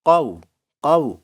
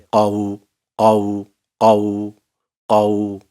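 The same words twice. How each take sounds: First: قو with a light, thin waw; thin vowel. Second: قو said thick and heavy, louder; wrong thickened waw; heavy vowel. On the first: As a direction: keep the waw in قو fine. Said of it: "آگے جو واولین ہے نا، وہ بریک رہے". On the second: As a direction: let قو go fat and booming. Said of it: "یہ میرا واو موٹا ہو رہا ہے نا". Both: Shown as a demonstration.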